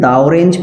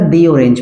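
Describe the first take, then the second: First: 'The' is said with a short 'uh' vowel. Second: 'The' is said with a long 'ee' vowel. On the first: The speaker calls it wrong. "Consonant sound जा रहा है तो आप इसको बोलेंगे फिर दा" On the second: The speaker calls it right. "यहाँ पे दी ऑरेंज पढ़ेंगे"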